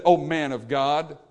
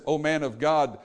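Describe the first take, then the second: First: Slow, mocking "O man of God"; drawn out with a sneer; sarcastic. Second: Humble plea. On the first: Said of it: "sarcasm again". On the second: Retold or imitated. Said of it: "this is a different attitude".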